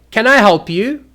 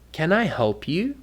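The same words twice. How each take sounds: First: Loud, high, impatient challenge; rude. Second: Softer, gently rising offer; polite. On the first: Showing how intonation offends people, loud and rude. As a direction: snap it out as if bothered. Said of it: "you're being very rude". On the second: Offering to help somebody, gentle and polite. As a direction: ask it courteously. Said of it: "If you say it wrong". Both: Shown as a demonstration.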